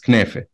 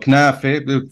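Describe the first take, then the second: First: The word ends with an 'e' vowel. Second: The word ends with an 'a' vowel. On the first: This is the Lebanese form with the vowel shift. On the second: This is the form without the Lebanese vowel shift.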